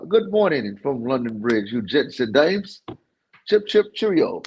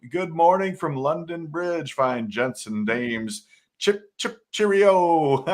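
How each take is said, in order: First: Horrible British accent attempt. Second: Mock British greeting. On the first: Shown as a demonstration. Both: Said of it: "You gotta do that with the accent".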